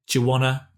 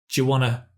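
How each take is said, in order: Both takes have the same delivery.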